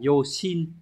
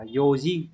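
First: The second syllable starts with an 'sh' sound. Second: The second syllable starts with a 'j' sound. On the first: The speaker calls it wrong. "các bạn không đọc là Yoshin" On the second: The speaker calls it right. "các bạn phải đọc là Yojin"

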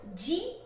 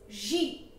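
First: The letter starts with a hard g sound. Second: The letter starts with a soft zh sound. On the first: The speaker calls it wrong. "Not G" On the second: The speaker calls it right. "J mixed with a little sh"

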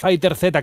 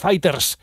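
First: The ending is said as the letter name. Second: The ending is said as a plain s sound. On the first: The speaker calls it wrong. "no es Fighter Z" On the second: The speaker calls it right. "que es Fighters"

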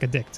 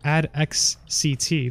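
First: The name is said as one word, addict. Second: The final letters are spoken one by one. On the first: The speaker calls it right. "it's just like Addict" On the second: The speaker calls it wrong. "That sounds so weird"

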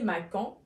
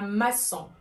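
First: The middle consonant is a hard k sound. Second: The middle consonant is a soft s sound. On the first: The speaker calls it wrong. "pour ne pas prononcer macan" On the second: The speaker calls it right. "on dit un maçon"

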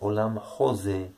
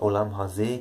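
First: The second word's first vowel is an 'o' sound. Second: The second word's first vowel is an 'a' sound. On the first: It means the world of imagination. "könnte man entsprechend auch als Olam Hoseh aussprechen, genau gleich geschrieben" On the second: It means this world. "also diese Welt"

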